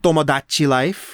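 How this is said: The title is pronounced with exaggerated Japanese sounds. The speaker calls it wrong. "they would do everything they could to overpronounce it"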